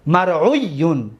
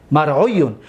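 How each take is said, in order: First: Slow drill. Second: Said in the usual way. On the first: Shown as a demonstration. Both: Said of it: "واو را قلب یا کردیم".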